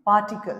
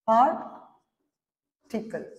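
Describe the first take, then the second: First: Said in the usual way. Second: "पार्टिकल" very slowly, पार, long pause, टिकल; long gap inside "पार्टिकल"; split into syllables. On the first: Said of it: "कैसे लिखेंगे". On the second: Shown as a demonstration. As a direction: pull "पार्टिकल" apart into two beats. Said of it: "इसको हम लोग साफ करके".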